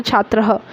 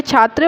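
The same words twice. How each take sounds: First: छात्रः ending in a light breathy h echo; visarga on छात्रः. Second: Said in the usual way. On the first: Shown as a demonstration. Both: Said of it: "विसर्ग लगा है तो हल्का सा ह का हम बोलते हैं".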